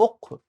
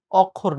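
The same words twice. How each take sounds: First: "অক্ষর" much softer, opening on closed o; correct pronunciation. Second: "অক্ষর" with open aw first; wrong pronunciation. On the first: Teacher replacing the wrong form, soft "অক্ষর" with closed o first. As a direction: round the first vowel of "অক্ষর" to o. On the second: Teacher rejecting the common form, "অক্ষর" with open first vowel aw. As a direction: say "অক্ষর" the mistaken way, opening on aw. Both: Shown as a demonstration. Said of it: "অক্ষর না".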